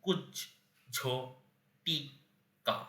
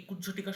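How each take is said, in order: First: কুজ্, ঝ, টি, কা, a pause after each; syllable by syllable. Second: Said in the usual way. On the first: Shown as a demonstration. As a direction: say four separate beats: কুজ্, ঝ, টি, কা. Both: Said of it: "শব্দের দল বিশ্লেষণ করি".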